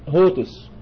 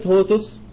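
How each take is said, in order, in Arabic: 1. الكلمة تبدأ بصوت h. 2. الكلمة تبدأ بحرف صائت، لا يوجد h.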